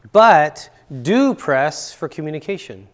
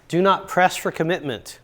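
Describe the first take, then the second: First: "do press" slowed and louder; stress on do press. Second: Said in the usual way. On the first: Real, not acted. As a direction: lean hard on "do press for communication". Contrast with do not press.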